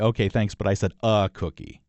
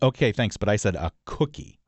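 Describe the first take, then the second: First: The stress is on the word a. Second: The stress is on the word cookie.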